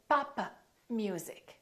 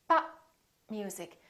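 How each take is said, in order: First: The final p is released, adding a syllable. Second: The final p is held without release. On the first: The speaker calls it wrong. "Don't say papa music" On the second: The speaker calls it right. "you need to say pop music"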